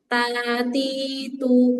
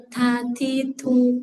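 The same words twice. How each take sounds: First: TA, TI, TU held long without a puff; normal ta. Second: TA, TI, TU with puffs of air after T; wrong breathy ta. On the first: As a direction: clean unbreathed "Ta, titu". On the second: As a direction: aspirate each T in "ta, titu". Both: Shown as a demonstration.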